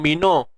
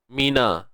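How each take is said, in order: First: The vowel after n is dark, like o. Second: The vowel after n is light, like a. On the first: The speaker calls it wrong. "Tak mau mino" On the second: The speaker calls it right. "Nun jaga hati-hati"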